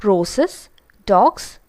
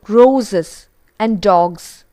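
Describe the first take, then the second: First: "roses" as ROH-suhs, "dogs" ending in s; hissed s mispronunciation. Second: Slow, deliberate "roses" and "dogs" with z sounds; voiced z endings. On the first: Teacher showing learners' error, "roses" and "dogs" with s sounds. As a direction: hiss the s in "roses" and "dogs", each rising. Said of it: "we tend to pronounce these words as". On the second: Teacher modelling correct plurals, "roses" and "dogs" with voiced z. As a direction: stretch "roses" and "dogs", buzzing the z. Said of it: "the ending is with z". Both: Shown as a demonstration.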